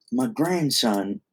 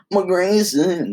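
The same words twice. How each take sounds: First: Said in the usual way. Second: "grandson" pitched high and drawn out, as "gren-sen"; off-sounding grandson. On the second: Acted. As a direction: stretch "grandson" high, both vowels like "e". Mis-said, then corrected after "no.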